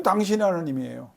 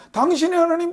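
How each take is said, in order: First: Said in the usual way. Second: Mocking your God. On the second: People's refrain, mocked.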